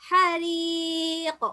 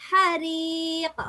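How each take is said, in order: No difference in how they are said.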